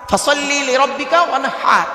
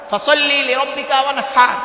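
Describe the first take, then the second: The two takes are said the same way.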